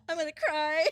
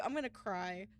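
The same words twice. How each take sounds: First: Much louder, high, half-sobbing, half-laughing; real crying laugh. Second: Said in the usual way. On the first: Real, not acted. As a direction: let the tears and laughter burst out together.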